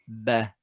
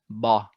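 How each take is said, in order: First: The ba sounds light and thin. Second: The ba sounds heavy and emphatic. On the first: The speaker calls it right. "Ba is light letter. It should be ba" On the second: The speaker calls it wrong. "as opposed to ba"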